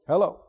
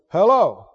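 First: It is said flatly, with little feeling. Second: It is said with surprise, questioning someone's presence.

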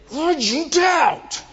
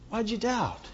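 First: It is said in an angry, harsh tone. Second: It is said in a gentle, mild tone.

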